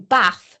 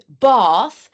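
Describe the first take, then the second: First: The vowel is short, like in 'cat'. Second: The vowel is long, like in 'bar'. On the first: This is the speaker's own native pronunciation. The speaker calls it wrong. "I'd be saying bath. So the phonetics was completely different" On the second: This is the expected exam pronunciation. The speaker calls it right. "that would be phonetic, let's say an A R"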